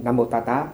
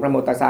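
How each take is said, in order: First: "Ta Ta" with t in place of s; Burmese Pali pronunciation. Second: "Ta Sa" with s in the second syllable; standard Pali pronunciation. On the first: Monk contrasts Burmese reading, "Ta Ta" with t. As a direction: say "Ta Ta", the second syllable starting with t. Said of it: "chỉ có miếng Điện". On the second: Monk shows the worldwide reading, "Sa" with s. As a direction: say "Ta Sa", keeping the s. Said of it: "Tất cả thế giới đều đọc". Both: Shown as a demonstration.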